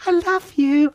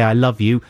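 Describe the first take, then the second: First: Mock adoring falsetto; very high, hammed-up declaration of love; gushing fan. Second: Said in the usual way. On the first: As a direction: squeak it like a starstruck fan. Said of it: "I didn't actually say, "I love you". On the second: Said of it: "I didn't actually say".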